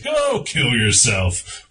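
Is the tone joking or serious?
joking. It is said in a light, joking tone. The remark is not meant literally. "the way I'm saying it, you know, it's obviously a joke"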